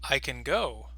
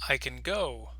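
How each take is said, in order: No difference in how they are said.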